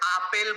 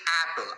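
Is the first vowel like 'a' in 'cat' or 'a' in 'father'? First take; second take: father; cat. First: The first vowel is the open 'a' of father. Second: The first vowel is the front 'a' of cat. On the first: The speaker calls it wrong. "আপেল বলি না কিন্তু আমরা" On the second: The speaker calls it right. "অ্যা sound আসছে"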